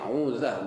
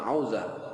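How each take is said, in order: First: The first vowel is a plain 'u' sound. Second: The first vowel is an 'au' diphthong. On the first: The speaker calls it right. "Jadi 'uzah bukan 'auzah" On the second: The speaker calls it wrong. "bukan 'auzah"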